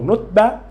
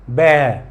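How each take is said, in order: First: The vowel is short. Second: The vowel is drawn out long. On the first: The speaker calls it wrong. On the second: The speaker calls it right. "Prolong more"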